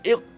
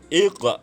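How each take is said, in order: First: The final q is cut off without any bounce. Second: The final q bounces with an echoing release. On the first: The speaker calls it wrong. "bukan iq mati eh" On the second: The speaker calls it right. "itu adalah lantunan"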